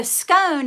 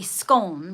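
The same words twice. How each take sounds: First: "scone" with a long O, rhyming with bone; southern English scone. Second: "scone" with a short open O, rhyming with gone; northern English scone. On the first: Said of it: "scone is more south". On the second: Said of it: "Northern is probably scone". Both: Shown as a demonstration.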